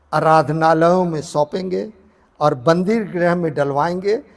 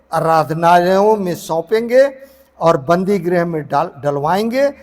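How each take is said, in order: No difference in how they are said.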